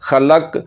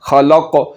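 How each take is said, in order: First: The final k is light with no echoing bounce. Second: The final k is deep with an echoing bounce. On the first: The speaker calls it wrong. "सख्त हिस्से के साथ लग रही है और बे बारीक कॉफ पढ़ा जा रहा है" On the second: The speaker calls it right. "ज़ुबान की जड़ को तालु के नरम हिस्से के साथ लगाना है और दूसरा इसमें कलकला करना है"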